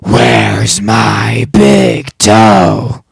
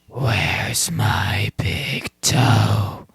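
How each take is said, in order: First: It is said loudest of all. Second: It is said somewhat louder.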